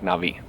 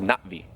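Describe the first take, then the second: First: It sounds like a smooth 'nah-vee' without a catch. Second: It sounds like 'not-vee' with a catch. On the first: This is the speaker's preferred everyday version. The speaker calls it wrong. "I know I'm mispronouncing it technically, but I like Na'vi" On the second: This is the technically correct name. The speaker calls it right. "technically in their language they're called Na'vi, but it sounds like Not-Vi"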